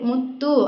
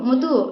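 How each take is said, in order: First: The middle t sound is held and doubled. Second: The middle t sound is short and single. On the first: The speaker calls it right. "ಒತ್ತು ಬಂದಿದೆ ಮುತ್ತು" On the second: The speaker calls it wrong. "ಮುತು ಮುತು ಅಂತ"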